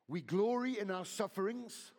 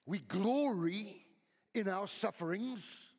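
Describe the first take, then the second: First: Loud, lifted reading of the verse; fervent scripture reading. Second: Glory stretched out slow and loud; slow emphatic reread. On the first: Preacher reads Romans to the church, loud and fervent. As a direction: proclaim the verse. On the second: Preacher repeats the verse to the church, slow and emphatic. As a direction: linger on glory. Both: Acted.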